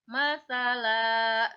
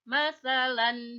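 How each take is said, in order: First: The word ends with a lengthened vowel, no n. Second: The word ends with a short vowel and n. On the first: This is how it is read when stopping. The speaker calls it right. "menjadi masalah, dipanjangkan" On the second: This is how it is read without stopping. The speaker calls it wrong. "bukan masalan"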